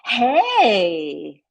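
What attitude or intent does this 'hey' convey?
gossipy. It sounds like sharing gossip. The speaker has juicy news to share. "Hey, gossip"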